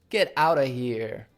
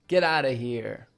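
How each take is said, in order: First: 'Out of' is reduced to 'outa'. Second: 'Out of' is reduced to 'outa'.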